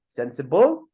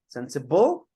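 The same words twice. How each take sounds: First: The stress is on the last syllable. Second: The stress is on the last syllable.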